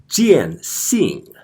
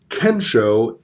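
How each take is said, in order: First: The term is given its Mandarin Chinese reading. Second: The term is given its Japanese reading. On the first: "if we pronounce it in a modern Mandarin Chinese way" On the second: "Kensho is Sino-Japanese. It is Chinese pronounced in a, in a Japanese way"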